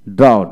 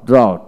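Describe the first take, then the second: No difference in how they are said.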